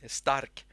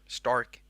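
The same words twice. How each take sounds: First: It is said with a Swedish pronunciation. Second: It is said with an English pronunciation. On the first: The speaker calls it right. "That's how you pronounce it" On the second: The speaker calls it wrong. "You probably say Stark if you're um, if you're an English speaker"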